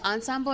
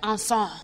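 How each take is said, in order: First: It is pronounced in a plain English style. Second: It is pronounced in an exaggerated French style.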